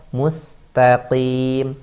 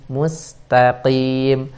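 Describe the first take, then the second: Both takes have the same delivery.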